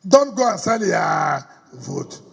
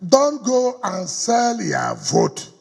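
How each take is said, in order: First: Slow shouted plea. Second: Slow plea. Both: Real, not acted. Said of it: "So I'm begging all of you here".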